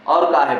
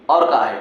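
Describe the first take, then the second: No difference in how they are said.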